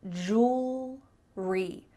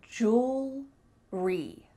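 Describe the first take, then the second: No difference in how they are said.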